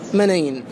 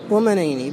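First: The word ends on a bare n, no vowel. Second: The final n is followed by a short vowel. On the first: This is the proper pausal form. "هكذا بسكون النون" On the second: The vowel is added because the verse's metre requires it. "نطق بهما محركين للضرورة"

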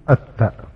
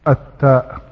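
Both takes have the same delivery.

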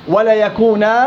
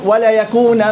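First: The word ends on a long 'a' vowel. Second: The word ends with an 'n' sound. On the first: The reader stops after this word. "وقفا" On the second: The reader joins this word to the next. "وصلا"

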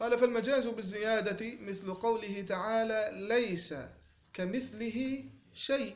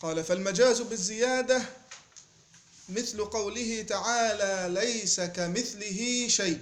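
The two takes are said the same way.

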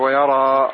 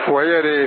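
First: The long vowel after r is a plain open a. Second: The long vowel after r is tilted toward e. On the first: "مع فتح الراء وألف بعدها" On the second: "وتمال هذه الألف"

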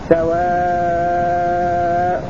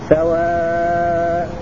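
First: The final vowel is held long. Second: The final vowel is held at medium length. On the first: "والطول" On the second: "والتوسط"

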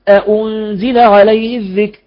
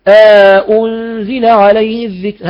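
First: Both hamzas full, with no alif between. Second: Both hamzas full, with an inserted alif between. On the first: "مثل حفص" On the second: "هذا وحده"

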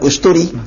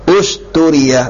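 First: The word ends on 'i' without a final 'a'. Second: The word ends with a clear final 'a' vowel. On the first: The speaker calls it wrong. "bukan usturi" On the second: The speaker calls it right. "Usturia, bukan usturi"

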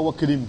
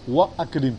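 First: The glottal stop drops, linking wa into krim. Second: The glottal stop before akrim is clearly pronounced. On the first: The speaker calls it wrong. "Tu ne dis pas wa akrim comme Hamzat al-Wasl" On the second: The speaker calls it right. "Et si jamais il y a un harf qui vient devant, tu vas dire wa akrim"

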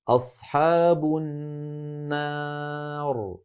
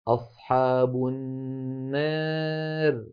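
First: The long vowel after r stays fully open 'a'. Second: The long vowel leans slightly toward an 'e' sound. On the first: "أما الفتح فيكون هكذا" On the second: "هذه ممالة إمالة صغرى"

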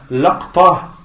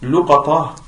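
First: Short a after l, no vowel after q. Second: Short u after l, long a after q. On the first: "le deuxième" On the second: "le troisième qui est luqata, c'est le alif après le qaf"

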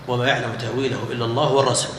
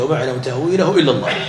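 First: The reading runs on without pause after Allah. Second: The reading stops with a pause after Allah. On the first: Those firm in knowledge also know its interpretation. "بالوصل" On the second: Only God knows its interpretation; a new sentence begins after. "قراءة الجمهور بإيش بماذا بالوقف. الجمهور قال هكذا"

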